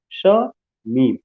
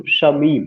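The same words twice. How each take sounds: First: "श" and "मीम" said apart, with a clear pause between; teacher splitting "श / मीम" into two separate beats; syllable by syllable. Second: Said in the usual way. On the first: Shown as a demonstration. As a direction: break the name into "श", pause, "मीम". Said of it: "एक तो श और दूसरा मीम". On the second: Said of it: "दो syllable आया हुआ".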